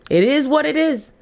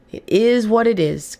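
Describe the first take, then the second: First: Pitched higher, with a different ring; lifted resigned declaration; raised emphatic take. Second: Slower, settled repeat; drawn-out resigned acceptance; slow resigned take. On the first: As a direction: say it up high, like a shrug to the crowd. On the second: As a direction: let it land slowly, accepting it. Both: Real, not acted. Repeats the phrase twice.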